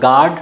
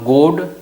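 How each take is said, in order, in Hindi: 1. यह एक लंबा खुला 'aa' स्वर है। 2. यह एक बंद गोल 'o' स्वर है। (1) "न गाड" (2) "न गोड"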